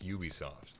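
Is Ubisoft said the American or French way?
American. It is said with an American pronunciation. "in America, it's"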